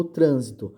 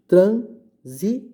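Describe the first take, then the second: First: Said in the usual way. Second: Trânsito very slow and loud, "trân... si... to"; teacher spelling out trânsito in beats, with pauses; syllable by syllable. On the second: Shown as a demonstration. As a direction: break trânsito into three separated syllables. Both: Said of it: "Se eu for separar".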